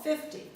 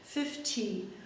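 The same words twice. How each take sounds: First: The middle consonant is a soft, small D. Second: The middle consonant is a clear, pronounced T. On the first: "a very small, unstressed D sound" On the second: "British speakers might pronounce the T more like"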